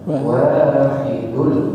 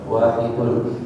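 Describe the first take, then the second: First: The first vowel is said long. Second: The first vowel is said short. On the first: The speaker calls it right. "harusnya wahidul, panjang wawunya ya" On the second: The speaker calls it wrong. "jadi wa-nya dibaca pendek"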